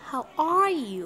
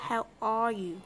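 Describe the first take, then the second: First: "how are you" with "are" drawn out and leaned on; stress on "are". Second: "how are you" said more evenly, gliding down through "you"; second option, "are" less punched; alternative stress pattern. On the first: Teacher showing learners one way to stress it, stressed "are". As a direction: lean into "are", then let "you" drop. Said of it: "người ta không có nhấn được". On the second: Teacher offering learners another way to say it, evener stress. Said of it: "mình không biết là kiểu nào đọc hay hơn". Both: Shown as a demonstration.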